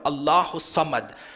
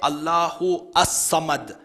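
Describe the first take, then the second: First: The words are joined, the lam is silent. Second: The article is pronounced separately before Samad. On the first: The speaker calls it right. "You join it together" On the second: The speaker calls it wrong. "you don't say"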